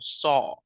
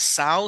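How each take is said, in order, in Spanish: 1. La vocal es un solo sonido 'aw' abierto. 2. La vocal se desliza como 'ow' en 'cow'. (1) "sino saw" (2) "no es saw"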